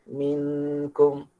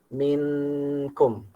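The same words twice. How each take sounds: Both takes have the same delivery.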